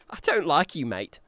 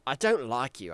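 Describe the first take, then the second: First: It is said in Dotch's voice. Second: It is said in his normal voice.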